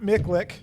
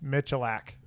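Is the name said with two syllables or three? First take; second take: two; three. First: The name is said with two short syllables. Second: The name is said with three full syllables. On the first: The speaker calls it wrong. "it's not Miklik. None of that" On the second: The speaker calls it right. "It's Michalak"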